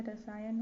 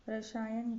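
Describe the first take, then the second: First: रसायन with a clean s; correct pronunciation. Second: रसायन with sh in place of s; wrong pronunciation. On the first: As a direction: keep the स of रसायन a plain s. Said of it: "होगा". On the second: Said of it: "गलत है". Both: Shown as a demonstration.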